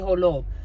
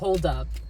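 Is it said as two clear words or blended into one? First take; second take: blended; two words. First: It is blended into one word, holo. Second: It is said as two clear words.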